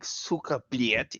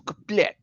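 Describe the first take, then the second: First: The second word has a 'y' glide before the vowel. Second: The second word has no 'y' glide before the vowel. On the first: The speaker calls it wrong. "You don't say fucking Sukoblet" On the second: The speaker calls it right. "It's Sukoblet"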